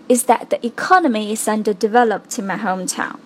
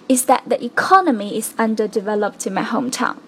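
The two takes are said the same way.

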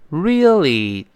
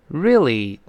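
First: It is said slowly with every sound clear. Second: It is said quickly with the middle sounds dropped. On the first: "读慢了呢是这么一个声音" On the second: "语速比较快，那个re 啊，那个e 啊，后面那个就听不到了"

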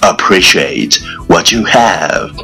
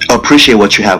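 First: It is spoken at a moderate pace. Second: It is spoken very fast in one breath.

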